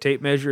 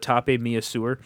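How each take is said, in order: First: It is said with ordinary English pronunciation. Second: It is said with odd, French-sounding pronunciation.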